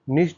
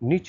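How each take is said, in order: First: The word ends with an 'sh' sound. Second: The word ends with a 'ch' sound.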